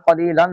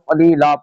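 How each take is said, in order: First: The word ends with an n sound. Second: The word ends with a long a. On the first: The reading continues without stopping. "دو زبر کو الف سے بدل دیں گے۔ جس طرح یہاں پہ قلیلن ہے" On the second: The reader stops on this word. "اس کو قلیلا پڑھیں گے"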